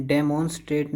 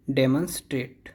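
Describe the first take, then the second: First: डेमोन्स्ट्रेट with a full "mon" in the middle; wrong pronunciation. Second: डेमोन्स्ट्रेट with a weak "mun" in the middle; correct pronunciation. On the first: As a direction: say "deh-MON-strate" for डेमोन्स्ट्रेट. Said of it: "डेमोन्स्ट्रेट नहीं है". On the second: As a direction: say "DEM-un-strate" for डेमोन्स्ट्रेट. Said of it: "ये है डे". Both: Shown as a demonstration.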